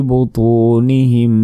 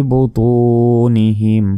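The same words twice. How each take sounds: No difference in how they are said.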